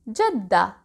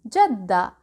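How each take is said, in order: The two takes are said the same way.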